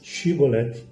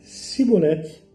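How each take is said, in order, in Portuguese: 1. A palavra começa com o som 'sh'. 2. A palavra começa com o som 's'. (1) "a diferença, Shibolete" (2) "não podendo pronunciar corretamente a palavra"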